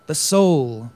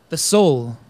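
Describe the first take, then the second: No difference in how they are said.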